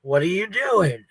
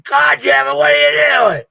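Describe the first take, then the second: First: Drawn-out, mildly exasperated retelling; mock exasperation, slow and drawn out; irritated mock question. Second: Loud, high-pitched imitated outburst; hammed-up exasperated shouting; angry mock shout. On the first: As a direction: stretch out the question as an imitated grumble. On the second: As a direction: yell it as the fed-up husband. Retelling husband's angry outburst on camera.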